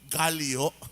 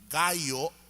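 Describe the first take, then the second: First: The middle sound is an 'ly' sound. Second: The middle sound is a plain 'y' sound. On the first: "ang pronunciation nating mga Pilipino" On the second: "ang salitang gayo"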